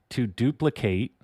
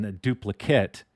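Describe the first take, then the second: First: To DUPLICATE, ending in a full "kate"; verb pronunciation. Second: The DUPLICATE, ending in a short "kit"; noun pronunciation. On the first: Streamer explaining the verb, duplicate ending in "kate". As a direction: say duplicate as the verb, long A at the end. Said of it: "that's the verb". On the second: Streamer explaining what you get, duplicate ending in "kit". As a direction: say duplicate as the noun, last vowel reduced. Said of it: "is what you get". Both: Shown as a demonstration.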